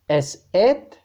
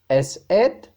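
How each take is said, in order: The two takes are said the same way.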